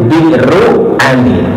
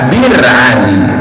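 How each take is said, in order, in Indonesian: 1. Kata pertama terdiri dari dua suku kata, ada hentian di tengahnya. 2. Kata pertama disingkat menjadi satu suku kata. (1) "tulisannya itu Bi'ru Ali" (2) "disebut dengan kata Bir Ali"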